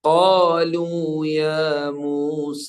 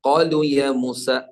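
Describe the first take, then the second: First: The long vowels are held for two beats. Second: The long vowels are cut to one beat. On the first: "ഇതാണ് രണ്ട് ഹർക്കത്തിന്റെ ഖദർ" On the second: "അത് എല്ലാം ഒരു ഹറക്കത്തിന്റെ ഖദറാണ് നമ്മൾ ഉച്ചരിച്ചത്"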